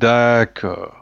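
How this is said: It sounds mocking and dismissive.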